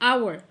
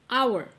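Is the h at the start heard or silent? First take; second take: silent; silent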